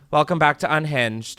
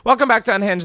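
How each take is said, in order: First: It is said with flat, low energy. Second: It is said with loud, high energy.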